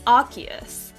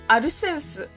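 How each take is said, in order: First: It is said with an English-style pronunciation. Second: It is said with a Japanese-style pronunciation. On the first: "The English pronunciation is" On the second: "But in Japanese, where Pokemon comes from, it's"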